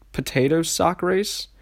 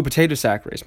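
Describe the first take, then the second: First: "potato sack race" drawn out slowly, rising into a question; puzzled misreading. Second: "potato sack race" said quicker, falling at the end as it clicks; "potato sack race" as a firm self-correction; corrected reading. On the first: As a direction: read "potato sack race" slowly, unsure, pitch lifting at the end. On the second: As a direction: say "potato sack race" with sudden recognition, settling downward. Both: Real, not acted. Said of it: "my fault".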